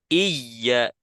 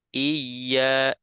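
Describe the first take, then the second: First: The doubled y is jabbed out too forcefully. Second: The doubled y is held gently and naturally. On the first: The speaker calls it wrong. "terlalu menekan menghentak" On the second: The speaker calls it right. "natural. Iya, iya seperti itu"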